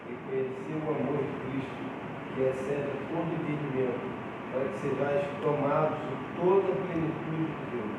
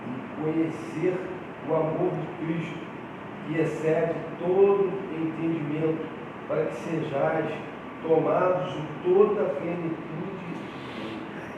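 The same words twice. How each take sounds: First: It is read at a softer volume. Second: It is read at a louder volume.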